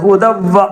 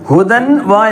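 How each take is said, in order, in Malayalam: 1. n ഇരട്ടിച്ച w ശബ്ദത്തിലേക്ക് ലയിക്കുന്നു. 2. wa യ്ക്ക് മുമ്പുള്ള n വ്യക്തമായി ഉച്ചരിക്കുന്നു. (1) "ഹുദവ്വ വാവാണ് മണിക്കുന്നത്" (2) "ഹുദൻ വാ എന്ന് പറയരുത്"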